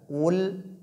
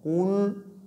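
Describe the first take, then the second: First: The lips relax back to neutral on the L. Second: The lips stay rounded through the L. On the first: The speaker calls it right. "le renvoi des lèvres dans la position initiale" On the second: The speaker calls it wrong. "On ne laisse pas les lèvres dans la position de Qaf"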